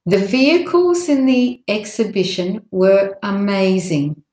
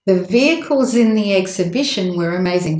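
First: Measured model sentence with small breaks before exhibition and amazing; careful, separated phrasing. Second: Vehicles runs into in, were into amazing; linked words. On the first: Teacher's first model for learners, careful phrasing. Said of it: "if some words are linked". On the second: Teacher showing which words link, connected speech. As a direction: join "vehicles in" and "were amazing" without gaps. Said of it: "Those words link". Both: Shown as a demonstration.

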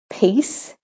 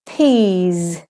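First: "peace" short, with hissed s; teacher's clear "peace" with final s; voiceless S ending. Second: "peas" long, with buzzing z; teacher's drawn-out "peas" with final z; voiced Z ending. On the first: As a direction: end "peace" on an unvoiced s. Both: Shown as a demonstration. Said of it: "when the S says S or the S says Z".

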